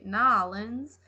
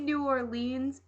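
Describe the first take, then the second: First: The name is squeezed into one short word. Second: The name is said in full, all syllables. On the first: This jokingly copies how locals are thought to say it. "I always say Nolans, which is just because I'm weird" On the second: This is the speaker's usual way of saying it. "I say New Orleans"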